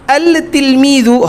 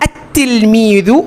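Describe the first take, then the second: First: The 'l' of the article is pronounced separately. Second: The 'l' merges into a doubled 't' sound. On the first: The speaker calls it wrong. "এটা আল তিলমিদু হবে না" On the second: The speaker calls it right. "কি হবে আত্তিলমিদু হবে"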